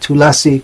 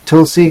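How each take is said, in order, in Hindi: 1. बीच का स्वर बोला जाता है, तीन अक्षर। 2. बीच का स्वर छोड़ा जाता है, दो अक्षर। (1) "जब हम संस्कृत श्लोक कहते हैं ... तुलसी कहना पड़ेगा" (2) "बंगाली में हिंदी में यदि हम तुलसी कहेंगे कोई दोष नहीं है"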